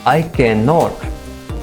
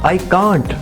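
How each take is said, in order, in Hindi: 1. Can और not दो पूरे शब्दों की तरह बोले जाते हैं। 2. Can और not मिलकर एक छोटा शब्द बन जाते हैं।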